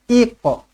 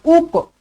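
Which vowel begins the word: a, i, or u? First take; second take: i; u. First: The word begins with an i vowel. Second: The word begins with a u vowel. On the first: The speaker calls it right. "yang betul adalah iqa" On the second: The speaker calls it wrong. "bukan uqa"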